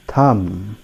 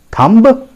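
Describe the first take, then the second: First: "thumb" with silent b; low, soft "thumb" ending on m; correct pronunciation. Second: "Thumb" with the b sounded, high rising question; wrong pronunciation. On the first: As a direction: model "thumb" without any b. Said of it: "So it is pronounced as". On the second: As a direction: ask "Thumb" with an audible final b. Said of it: "That is not the correct pronunciation". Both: Shown as a demonstration.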